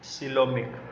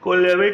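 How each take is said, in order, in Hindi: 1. शब्द की शुरुआत s ध्वनि से होती है। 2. शब्द की शुरुआत k ध्वनि से होती है। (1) "सिलोमिक बोलेंगे इसको" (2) "कोलेमिक नहीं"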